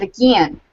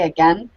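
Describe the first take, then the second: First: "again" said as "a-gee-an"; childhood mispronunciation of "again". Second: Said in the usual way. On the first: Shown as a demonstration. Word she was teased for as a kid, "again" as "uh-gee-an". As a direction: stretch "again" into a Southern "uh-GEE-an". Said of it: "I, I said". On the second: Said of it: "I couldn't say".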